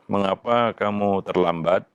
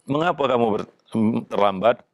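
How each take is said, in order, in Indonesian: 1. Diucapkan dengan nada tenang dan bertanya. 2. Diucapkan dengan nada kasar dan tajam. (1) "dengan cara yang tenang dan bertanya" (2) "dengan cara yang kasar atau dengan intonasi yang agak eh, tajam"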